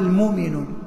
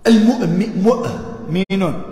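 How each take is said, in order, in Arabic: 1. الهمزة المتوسطة تُحذف. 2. الهمزة المتوسطة تُنطق بوضوح. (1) "ويقال المؤمنون"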